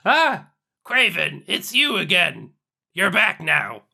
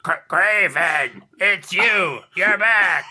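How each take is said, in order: First: Lightly voiced character greeting, close to normal; faint attempt at a character voice; character voice, barely there. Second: Slow, drawn-out shouted character greeting; exaggerated character voice. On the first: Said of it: "too much like your, your normal voice". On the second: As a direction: push the character voice much further, stretching every word. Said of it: "I'll, I'll, I'll try doing it".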